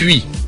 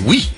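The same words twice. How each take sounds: First: It is said the Belgian way, like 'huit'. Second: It is said with a standard French pronunciation. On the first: "Vous dites oui" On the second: "Moi je dis oui"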